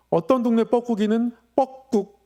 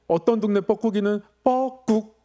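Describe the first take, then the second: No difference in how they are said.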